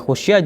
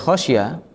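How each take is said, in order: First: The first vowel is a rounded 'u' sound. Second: The first vowel is an open 'a' sound. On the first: The companions were the ones who feared it. "dengan mendomah kha sebagai bangunan untuk maf'ul" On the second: The Prophet is the one who gave the command. "dengan menfathah kha sebagai apa? Bangunan untuk fa'il"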